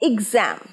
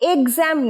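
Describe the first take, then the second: First: The first vowel sounds like 'i' in big. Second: The first vowel sounds like 'e' in bed. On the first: The speaker calls it right. "উচ্চারণ ই" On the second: The speaker calls it wrong. "এক্সাম নয়, এ নয়"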